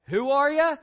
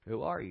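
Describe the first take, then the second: First: The line is said in the speaker's ordinary voice. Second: The line is said in an old, fatherly voice.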